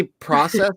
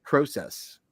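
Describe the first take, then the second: First: "process" with short AH in the first syllable; American-style process. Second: "process" with long OH in the first syllable; Canadian-style process. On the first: Asking the co-host which way, "process" as PRAH-sess. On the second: Asking the co-host which way, "process" as PROH-sess. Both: Shown as a demonstration. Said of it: "Do you say process or".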